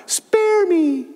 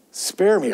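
First: Sudden high cry for mercy; a tiny bug crying out, high and pleading; cried out. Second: Said in the usual way. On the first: A narrator's reading. Bug begging Horville not to squash it, high cry. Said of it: "He cried out".

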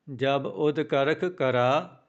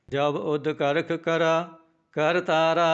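First: ਜਬ ਉਦ ਕਰਖ ਕਰਾ then a clear stop after ਕਰਾ; pause after ਕਰਾ. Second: Whole line chanted slowly without a break. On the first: Teacher showing students where to pause, pause after ਕਰਾ. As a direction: break the line after ਕਰਾ. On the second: Teacher chanting the full line first, slow sung. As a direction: sing through to Tara. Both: Shown as a demonstration. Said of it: "ਇੱਥੇ ਵਿਸਰਾਮ ਲਾਉਣਾ ਹੈ".

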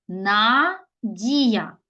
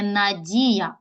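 First: "Надія" as На, a pause, then дія; teacher dividing "Надія" into На... дія; split for hyphenation. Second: Said in the usual way. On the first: Shown as a demonstration. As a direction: break "Надія" after a drawn-out first syllable. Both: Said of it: "можемо перенести на два склади".

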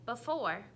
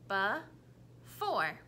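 First: Said in the usual way. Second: Before said slowly, be and fore apart; chopped into syllables. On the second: Shown as a demonstration. Teacher chopping the word into syllables. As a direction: chop before into its beats. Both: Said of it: "tell me the parts or the syllables".

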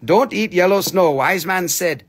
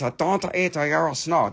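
First: Said in the usual way. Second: Put-on Chinese-accented sage; hammed-up Confucius saying in fake Chinese accent; mock Chinese accent. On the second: Seller quotes wise man on yellow snow, mock Chinese accent. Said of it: "This is straight from Confucius' mouth".

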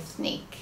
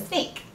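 First: Snake with a lisp, the s said as th. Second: Said in the usual way. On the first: Shown as a demonstration. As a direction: say snake with the tongue through the teeth, like thnake. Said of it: "my S's were like th". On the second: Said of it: "if I said snake".

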